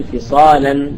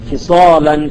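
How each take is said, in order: First: The lam in فصالا said thin, tarqeeq; light lam. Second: The lam in فصالا said thick after the sad; heavy lam. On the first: Teacher showing the tarqeeq reading to students. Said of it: "فروى بعضهم الترقيق". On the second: Teacher demonstrating tafkheem on a word-final example. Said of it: "على التفخيم". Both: Shown as a demonstration.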